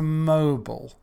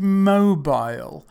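First: It is said with the American pronunciation. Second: It is said with the British pronunciation. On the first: The speaker calls it wrong. "into mobile, come on, America, behave yourselves" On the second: The speaker calls it right. "to change mobile"

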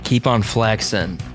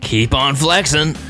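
First: It is said tentatively, without conviction. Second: It is said firmly, with conviction.

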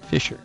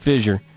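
First: The middle consonant is a voiceless sh sound. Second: The middle consonant is a voiced zh sound. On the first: The speaker calls it right. "That's the way it's supposed to be pronounced" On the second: The speaker calls it wrong. "We Z it up"

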